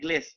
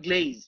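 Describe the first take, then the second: First: The word ends with an s sound. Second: The word ends with a z sound. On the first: The speaker calls it wrong. "ও নিজে কিন্তু ঠিক মতো উচ্চারণ করতে পারে না, গ্লেস দেয়" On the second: The speaker calls it right. "এটা হবে গ্লেজ"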